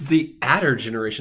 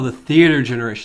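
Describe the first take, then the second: First: It is said as two words, 'the adder'. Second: It is said as one word, 'theater'. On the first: The speaker calls it wrong. "we've been pronouncing that wrong" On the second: The speaker calls it right. "That makes a lot of sense"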